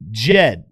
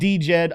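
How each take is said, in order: First: The name begins with a plain J sound. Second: The name begins with a D sound before J. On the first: The speaker calls it right. "it's been announced that Jed" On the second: The speaker calls it wrong. "not D-Jed"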